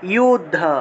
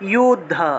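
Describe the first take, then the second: Both takes have the same delivery.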